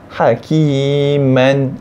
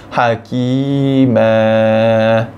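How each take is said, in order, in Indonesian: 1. Kata itu berakhir dengan bunyi n. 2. Kata itu berakhir dengan vokal a panjang. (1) "tu tanwin fathah" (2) "Kita tukar tanwin fathah ini dengan panjang dua harakat. Ha, jadi dia jadi hakimah"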